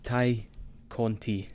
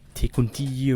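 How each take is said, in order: First: The first name rhymes with 'tie'. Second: The first name rhymes with 'day'. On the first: The speaker calls it right. "It's Ty Conti" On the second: The speaker calls it wrong. "It's not Tay Conti"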